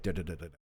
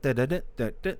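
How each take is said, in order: First: It is said in a calm, relaxed way. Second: It is said in an exaggerated, over-the-top way. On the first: She is being her genuine self. "Just chill, mm, chill, different tonal shift" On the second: She is performing for an audience. "when she's in front of other people, oh my god"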